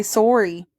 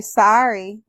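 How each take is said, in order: First: "sorry" with rounded Canadian "sore-y" vowel. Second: "sorry" said as American "sahry", open ah vowel. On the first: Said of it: "and I say". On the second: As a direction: say "sorry" the American way, rhyming with "car". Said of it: "I like how yous all say". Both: Shown as a demonstration.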